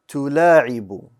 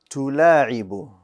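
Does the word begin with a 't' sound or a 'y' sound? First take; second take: t; t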